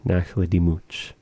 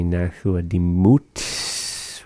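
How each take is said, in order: First: Nachla Dimut with the final T and S run together like ch; sounds mashed together. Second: Nachla Dimut with T and S held apart, the s drawn out; sounds kept distinct. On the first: Teacher contrasting two pronunciations, Nachla Dimut with the ending mashed together. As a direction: blend the end of Dimut into one softer ch-like sound. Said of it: "where they mash the sounds together".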